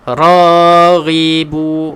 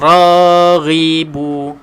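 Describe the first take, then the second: No difference in how they are said.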